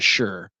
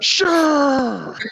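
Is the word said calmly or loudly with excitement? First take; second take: calmly; loudly. First: It is said calmly and flatly. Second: It is said loudly and excitedly.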